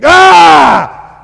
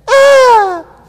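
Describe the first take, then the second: First: It is a deep, manly cry. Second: It is a weak, wimpy cry.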